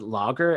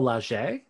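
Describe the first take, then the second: First: The middle consonant is a hard G sound. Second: The middle consonant is a soft J sound. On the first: The speaker calls it wrong. "I was going to pronounce it lager, as in like the beer" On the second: The speaker calls it right. "it's like a soft J sound"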